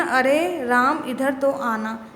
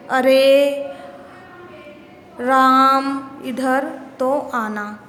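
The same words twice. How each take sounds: First: Slow, stretched अरे at normal volume; drawn-out अरे, said to the class rather than called out; stretched vowels. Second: Loud, long drawn-out call, vowels stretched; calling from afar. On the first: Teacher repeats the example to show the long vowel, slow and stretched. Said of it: "स्वर लंबा निकल रहा है ना इसमें". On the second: Teacher demonstrating how to call someone from far away, loud drawn-out call. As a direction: call out to Ram across a distance, stretching every vowel. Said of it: "किसी को दूर से बुलाने के लिए". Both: Shown as a demonstration.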